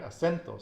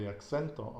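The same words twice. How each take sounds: First: "Acento" as a-SEN-to, with no k sound; corrected pronunciation. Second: "acento" slipped into "aksento"; mistaken k sound. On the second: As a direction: say "acento" with an English-like ks. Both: Shown as a demonstration.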